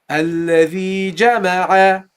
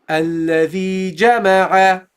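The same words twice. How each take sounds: No difference in how they are said.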